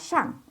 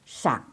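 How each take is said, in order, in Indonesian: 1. Kata itu diucapkan dengan nada keempat. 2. Kata itu diucapkan dengan nada ketiga. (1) "nggak dibaca nada keempat, nggak dibaca shang" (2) "tapi dibacanya nada ketiga"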